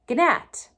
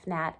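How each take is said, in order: First: The word has an older, early modern pronunciation. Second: The word has its present-day pronunciation. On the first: "in early modern English, you would say" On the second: "instead of"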